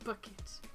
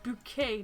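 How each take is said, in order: First: It ends in an 'it' sound, stressed at the start. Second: It ends in an 'ay' sound, stressed at the end. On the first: The ordinary pronunciation of the spelling. The speaker calls it wrong. "not bucket" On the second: The fancy pronunciation the owner insists on. The speaker calls it right. "it's bouquet, not bucket"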